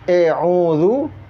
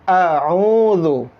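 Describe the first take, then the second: First: The first vowel is an e sound. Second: The first vowel is an open a sound. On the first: The speaker calls it wrong. "Bukan e'udzu" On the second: The speaker calls it right. "tapi a'udzu"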